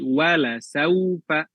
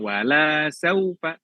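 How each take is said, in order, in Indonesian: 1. Vokal setelah L tetap dibaca pendek. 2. Vokal setelah L diucapkan panjang. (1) "tapi wala saufa" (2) "Lamnya di situ pendek ya, bukan wala saufa"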